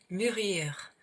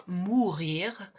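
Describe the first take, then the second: First: Mûrir with a front, rounded French "u"; mûrir, drawn out, with "ü" rather than "oo"; correct mûrir. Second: Mourir with an "oo" vowel, as in French "ou"; mourir, clearly sounded "moo-reer"; contrasting mourir. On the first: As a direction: say mûrir slowly, lips rounded on an "ee". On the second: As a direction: say mourir with a back, rounded "oo". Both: Shown as a demonstration. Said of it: "non mourir, mais mûrir".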